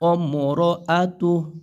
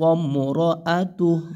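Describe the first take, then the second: Both takes have the same delivery.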